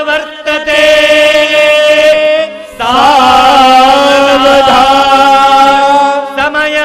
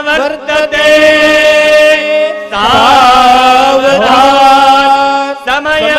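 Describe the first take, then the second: The two takes are said the same way.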